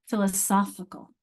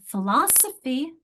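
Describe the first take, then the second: First: Philosophical with the weight on SOPH; stress on third syllable. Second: Slow Philosophy, LOS raised; stress on second syllable. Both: Shown as a demonstration. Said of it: "where's the stress".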